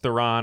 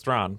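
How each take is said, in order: First: The name is said with two syllables. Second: The name is said with one syllable. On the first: This is the usual local way of saying it. The speaker calls it wrong. "or how we say it here, probably incorrectly" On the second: This is the original way of saying it. The speaker calls it right. "but correct pronunciation is Thrawn"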